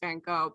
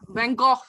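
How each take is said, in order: First: The name is said with an American pronunciation. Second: The name is said with a non-American pronunciation. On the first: "The American way of saying it is" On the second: "but I do, you know"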